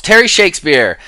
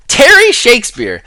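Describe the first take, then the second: First: Said in the usual way. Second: The name again, much higher and louder; higher repeat. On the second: Shown as a demonstration. Host calls out a fan name again, higher and louder. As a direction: say Terry Shakespeare again, high and announcing.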